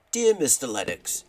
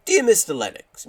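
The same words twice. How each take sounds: First: Said in the usual way. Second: Higher, louder acted letter opening; hammed-up formal salutation, pitched up; put-on letter voice. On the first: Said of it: "I'm gonna have to do some decent voices". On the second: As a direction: announce the letter in a put-on character voice. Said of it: "do some decent voices for this".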